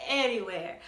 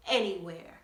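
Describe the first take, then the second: No difference in how they are said.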